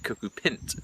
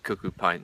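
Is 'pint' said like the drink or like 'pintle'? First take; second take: pintle; drink. First: Pint has a short vowel, like 'pintle'. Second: Pint has a long vowel, like the drink. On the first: The speaker calls it right. "you should pronounce it cuckoo pint. And pint is short for pintle" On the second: The speaker calls it wrong. "I always used to call it cuckoo pint"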